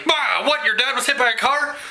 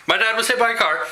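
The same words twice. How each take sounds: First: High, startled questioning, hammed up; mock shock. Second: Said in the usual way. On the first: Imitating new subscribers hearing about dad's accident, mock shock. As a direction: act out a stunned double take, rising at the end. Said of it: "like hitting you in the face with the crazy".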